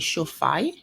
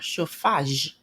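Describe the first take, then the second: First: The word ends with a Y sound. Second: The word ends with a J sound.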